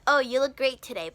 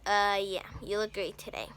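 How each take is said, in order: First: It sounds sincere and friendly. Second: It sounds sarcastic and insincere.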